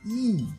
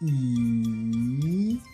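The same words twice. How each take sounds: First: It is said with the fourth Mandarin tone. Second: It is said with the third Mandarin tone.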